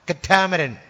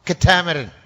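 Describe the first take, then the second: No difference in how they are said.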